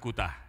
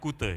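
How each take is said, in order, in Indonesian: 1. Nama itu berakhir dengan vokal 'a'. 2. Nama itu berakhir dengan vokal 'e'. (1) "bukan Kuta ya" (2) "Bacanya Kute ya"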